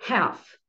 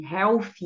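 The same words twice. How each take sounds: First: Half said as héf, with an open E and no L; Half with the E sound of bed and the L silent; correct pronunciation. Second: Health said as hawf, with a vowel plus L sound; common wrong pronunciation. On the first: Teacher models the right way for students, Half as héf without the L. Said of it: "pronunciar com som de E e sem o L". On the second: Teacher shows students the common mistake, health said with the L. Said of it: "E geralmente vocês pronunciam half". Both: Shown as a demonstration.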